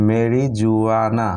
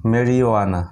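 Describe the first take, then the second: First: মেরিজুয়ানা very slowly with a hard j; hypothetical wrong মেরিজুয়ানা drawn out; wrong pronunciation. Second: মেরিওয়ানা with the j silent, meri-wana; correct pronunciation. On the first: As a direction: sound the j in মেরিজুয়ানা. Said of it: "এরকম উচ্চারণ হওয়া দরকার ছিল". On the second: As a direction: model the right মেরিওয়ানা. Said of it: "এটার উচ্চারণ". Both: Shown as a demonstration.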